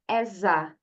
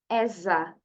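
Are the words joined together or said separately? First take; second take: joined; joined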